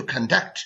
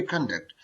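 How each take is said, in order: First: conduct leaning on its second syllable; verb stress on conduct. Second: conduct falling away after a stressed first syllable; noun stress on conduct. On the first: Teacher showing the verb form, conduct stressed on the second syllable. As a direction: say conduct as a verb, con-DUCT. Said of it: "जब बतौर verb इस्तेमाल होता है". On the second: Teacher showing the noun form, conduct stressed on the first syllable. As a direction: say conduct as a noun, CON-duct. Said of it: "जब ये noun बतौर noun इस्तेमाल". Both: Shown as a demonstration.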